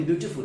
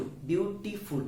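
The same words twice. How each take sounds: First: Said in the usual way. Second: beautiful syllable by syllable; three syllables. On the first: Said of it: "बोलिए beautiful". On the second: Shown as a demonstration. Teacher counting syllables for students, beautiful in three separate beats. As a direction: break beautiful into beau, ti, ful. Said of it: "तीन syllable है".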